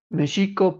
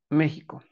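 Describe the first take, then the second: First: The x is sounded as a plain x sound. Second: The x is sounded like a Spanish j. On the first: This is the original pronunciation of the word. "realmente debería pronunciarse como Mexico" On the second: This is the changed, easier pronunciation of the word. "es más fácil pronunciar la X como por una J"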